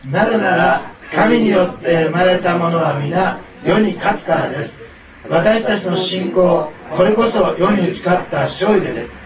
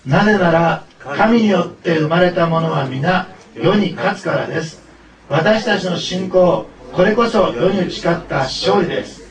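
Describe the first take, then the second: First: Loud, slow, energetic group recitation; rally everyone to recite in a big voice; big-voiced unison reading. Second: Loud, slow recitation in measured phrases; leading unison reading. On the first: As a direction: declaim the verse loudly, phrase by phrase. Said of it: "大きな声で言ってあげてください". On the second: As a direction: lead everyone through the verse, loud and slow. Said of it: "一緒に読みましょう". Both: Real, not acted.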